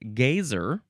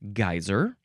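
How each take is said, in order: First: The first syllable rhymes with 'gay'. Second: The first syllable does not rhyme with 'gay'. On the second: "It's either geyser"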